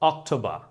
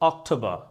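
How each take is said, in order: First: It is said in a British accent. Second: It is said in a British accent.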